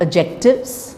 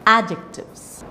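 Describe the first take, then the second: First: The stress is on a later syllable. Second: The stress is on the first syllable. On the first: The speaker calls it wrong. "It's not adjectives" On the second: The speaker calls it right. "it is adjectives"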